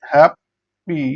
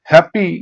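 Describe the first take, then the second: First: happy split in two, pause between beats; syllable by syllable. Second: Said in the usual way. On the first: Shown as a demonstration. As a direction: break happy into hap, then pi. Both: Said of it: "syllable অনুযায়ী ভাগ করি".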